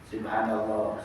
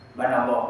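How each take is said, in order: First: It is said slowly and clearly. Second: It is said fast and slurred.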